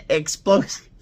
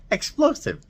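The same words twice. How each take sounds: First: Said in the usual way. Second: Explosive said much higher and punched; Explosive leaps high with a falling finish; emphatic repeat. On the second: Real, not acted. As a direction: hit Explosive high the second time.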